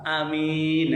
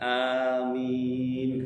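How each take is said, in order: First: The first vowel is short, the second long. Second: Both the first and second vowels are long. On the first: Trustworthy. "A-nya pendek, min-nya pan panjang" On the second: Please answer our prayer. "Yang betul itu A-nya panjang, min-nya panjang"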